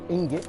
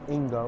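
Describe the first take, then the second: First: The final T is clearly sounded. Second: The final T is left silent. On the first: The speaker calls it right. "I pronounced it the right way this time" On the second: The speaker calls it wrong. "Don't know why I thought the T would be silent"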